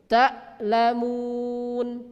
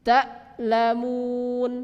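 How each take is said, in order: Both takes have the same delivery.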